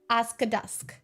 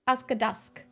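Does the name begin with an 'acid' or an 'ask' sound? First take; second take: ask; ask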